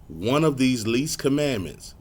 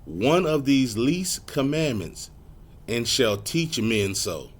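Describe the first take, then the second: First: One of these least commandments slowed and stressed; deliberate correction; slow, pointed correction. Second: One of these least commandments and shall teach men so, drawn out and stressed; insistent scripture reading; slow, emphatic reading. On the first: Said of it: "no, some of them". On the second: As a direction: lean hard on each word of One of these least commandments. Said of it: "the laws are done away with". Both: Shown as a demonstration.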